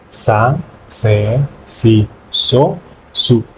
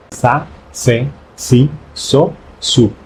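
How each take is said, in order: Both takes have the same delivery.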